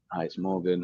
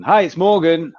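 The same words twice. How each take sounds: First: Quiet, low greeting. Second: Higher and louder, full of energy; upbeat phone hello; loud, bright greeting. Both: Retold or imitated. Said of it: "someone saying".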